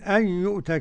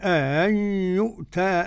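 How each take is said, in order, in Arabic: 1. تبدأ بهمزة واحدة فقط. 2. تبدأ بهمزتين، على سبيل الاستفهام. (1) "كده بهمزة واحدة" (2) "بالاستفهام"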